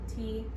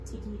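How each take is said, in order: First: The two syllables are spoken slowly and apart. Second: The two syllables are spoken somewhat faster together. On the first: "Start slow" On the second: "go a little bit faster"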